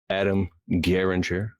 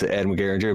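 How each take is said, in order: First: The name is said slowly and carefully. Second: The name is said quickly and casually. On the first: The speaker is showing respect. The speaker calls it right. "I need to show him respect" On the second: The speaker might seem disrespectful. The speaker calls it wrong. "if I would have just said it fast"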